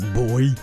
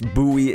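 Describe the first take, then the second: First: The word is said just like 'boy'. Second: The word is not said like 'boy'. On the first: This is how it is said in other regions. "other people kind of say it more like boy" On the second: This is how it is said in certain regions. "it is pronounced buoy in certain parts"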